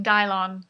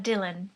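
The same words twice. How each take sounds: First: Dylon, like "die-lon"; misread as Dylon. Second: Dylan, second syllable unstressed; usual Dylan pronunciation. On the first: Customer expecting the misspelled name, Dylon said "die-lon". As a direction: say Dylon with both syllables full. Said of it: "which is Dylon, a brand of fabric dye". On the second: Customer giving a name to the barista, Dylan pronounced normally. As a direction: say Dylan with a weak "-un" ending. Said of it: "fully expecting Dylon". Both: Retold or imitated.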